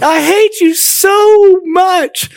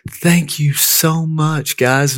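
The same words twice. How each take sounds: First: Enraged scream. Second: Higher, drawn-out, touched thank-you; dumbfounded gratitude. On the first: Younger sister storming into the living room at pranking brothers, enraged scream. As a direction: imitate a little sister's high-pitched shriek of rage. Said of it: "She was in a rage". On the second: Younger sister thanking siblings for the milkshake, dumbfounded and grateful. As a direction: imitate a sister stunned by a kind gift. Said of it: "she's dumbfounded". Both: Retold or imitated.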